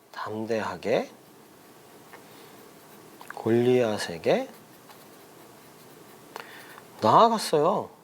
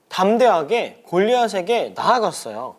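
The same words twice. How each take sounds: First: Low, soft 담대하게, long pause, 골리앗에게 drawn out and rising, long pause, 나아갔어요; dictation. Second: Said in the usual way. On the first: Shown as a demonstration. Repeats answer slowly for children writing. (담대하게, 골리앗에게, 나아갔어요를 길게 끊어 받아쓰기처럼)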